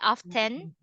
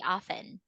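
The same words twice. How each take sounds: First: The T sound is pronounced in the middle. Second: The T sound is silent in the middle. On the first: "from other British accent. They say often" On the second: "American English, silent T"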